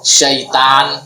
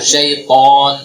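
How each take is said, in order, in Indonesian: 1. 't' terdengar tipis, dengan vokal tipis. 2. 't' terdengar tebal, dengan vokal tebal. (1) "Kalau tidak naik pangkal lidahnya" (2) "pangkal lidahnya naik supaya tebal"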